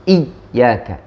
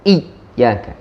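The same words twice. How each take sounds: First: The y sound is pressed to a full stop. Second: The y sound is pressed to a full stop.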